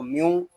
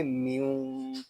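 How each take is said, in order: First: म्यू read short, without nasal humming; म्यू without the held nasal sound; wrong reading. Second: म्यू with a held nasal hum on the m; म्यू nasalised, ghunna held; correct ghunna. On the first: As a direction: clip म्यू with no ghunna. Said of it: "इस तरह नहीं पढ़ेंगे". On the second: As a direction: hum म्यू through the nose. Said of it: "इसको पढ़ेंगे". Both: Shown as a demonstration.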